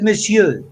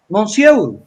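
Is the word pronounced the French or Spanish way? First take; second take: French; Spanish. First: It is said with French pronunciation. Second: It is read with Spanish letter sounds. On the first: It is how French speakers say it. The speaker calls it right. "es monsieur" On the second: It follows the written spelling. The speaker calls it wrong. "no van a pronunciar monsieur si están hablando en francés"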